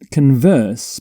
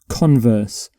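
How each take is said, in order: First: The stress is on the second syllable. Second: The stress is on the first syllable.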